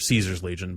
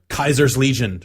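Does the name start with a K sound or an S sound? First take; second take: S sound; K sound. First: The name begins with a soft S sound. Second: The name begins with a hard K sound. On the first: This is how outsiders to the faction say it. "everyone who else just like no, it's fucking Caesar" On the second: This is how members of the faction say it. "his own people pronounce it Kaiser"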